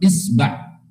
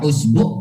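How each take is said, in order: First: The word begins with an 'i' vowel. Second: The word begins with an 'u' vowel. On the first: "hamzanya di kasroh" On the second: "hamzanya di duma"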